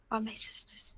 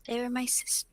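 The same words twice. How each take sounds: First: Softly corrects "they are my sisters", barely voiced; quiet correction. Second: Said in the usual way. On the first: Correcting herself about her sisters, near whisper. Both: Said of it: "they are my sisters".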